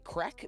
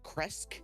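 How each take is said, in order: First: It is said without an s sound before k. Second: It is said with an s sound before k. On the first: The speaker calls it wrong. "I'm just going to say Krek" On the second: The speaker calls it right. "I know it's like Kresk. That Z is an S of some sort"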